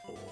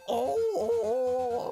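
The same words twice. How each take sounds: First: It is said in a calm, normal voice. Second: It is screamed loudly.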